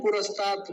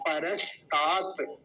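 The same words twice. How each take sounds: First: पुरस्तात beginning with "pu"; mistaken "pu" start. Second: परस्तात slowly as pa-ras-taat; correct "pa" start. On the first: Teacher quoting what some people say, the "pu" mistake. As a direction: say पुरस्तात with u in the first syllable. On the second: Teacher correcting the word, slow careful demo. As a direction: open with "pa" and lengthen the final taat of परस्तात. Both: Shown as a demonstration. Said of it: "पुरस्तात शब्द नहीं है".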